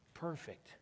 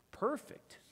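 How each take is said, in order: First: Said in the usual way. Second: Perfect swung up high at the end; high rising perfect. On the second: Acted. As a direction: lift Perfect into a bright rising tune. Magician praising volunteer.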